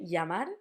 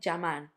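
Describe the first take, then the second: First: The word begins with a y-like sound. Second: The word begins with a j-like sound. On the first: "like a y" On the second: "some people in some countries would say llamar, like a j"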